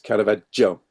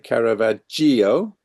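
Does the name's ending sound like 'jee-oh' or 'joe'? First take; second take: joe; jee-oh. First: The ending is one syllable, like joe. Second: The ending is split into two syllables, jee-oh. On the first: The speaker calls it right. "think of Joe as in the name" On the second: The speaker calls it wrong. "it's quite easy for us English speakers to say Caravaggio. That's not how we pronounce it"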